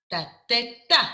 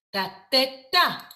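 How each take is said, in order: Both takes have the same delivery.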